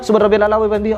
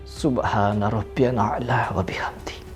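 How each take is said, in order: First: The phrase is recited quickly and hurriedly. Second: The phrase is recited slowly and carefully. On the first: The meaning cannot be absorbed. The speaker calls it wrong. "Tetapi apabila" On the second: The meaning sinks into the heart. The speaker calls it right. "dengan pelafasan yang tartil atau perlahan-lahan"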